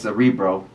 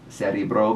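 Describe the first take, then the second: First: It is said with English letter sounds. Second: It is said with Russian letter sounds. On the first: "If you were in English, you would read it as" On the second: "but in Russian it's like"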